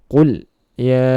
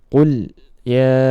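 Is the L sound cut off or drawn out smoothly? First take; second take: cut off; cut off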